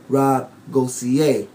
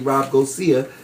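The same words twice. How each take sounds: First: The surname is pronounced the French way. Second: The surname is pronounced the simple English way. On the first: This is how the name is really said. "it's a French name" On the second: This is the easy version most people use. "So I just tell them say"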